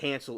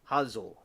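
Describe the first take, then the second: First: The name is said with an American pronunciation. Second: The name is said with a German pronunciation. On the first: "we say it Hansel over here" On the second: "the Germans pronounce it"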